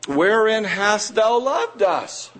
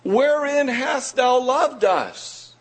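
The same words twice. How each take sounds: First: Slow, higher, questioning God; doubting people. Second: Much higher, slow, disbelieving; incredulous people. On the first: Preacher voicing Israel questioning God's love, slow and higher. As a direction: ask it slowly, a touch wounded. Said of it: "Yet ye say". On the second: Preacher re-voicing Israel's doubting question, higher and slower. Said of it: "Imagine those words". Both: Retold or imitated.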